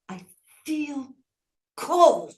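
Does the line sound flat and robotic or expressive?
expressive. It is read expressively, with human feeling.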